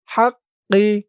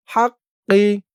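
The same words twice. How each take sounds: The two takes are said the same way.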